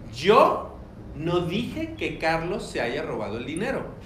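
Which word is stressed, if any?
yo. The first word yo is strongly emphasized. "Alguien lo dijo"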